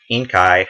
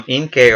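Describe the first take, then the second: First: Inkai ending like "eye"; Inkai, last syllable rhyming with "sky"; alternative pronunciation. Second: Inkay ending like "kay"; Inkay, last syllable rhyming with "day"; first pronunciation. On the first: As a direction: say Inkai with a long I at the end. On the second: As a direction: say Inkay with a long A at the end. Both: Real, not acted. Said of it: "or Inkai, I guess".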